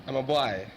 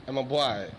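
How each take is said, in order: The two takes are said the same way.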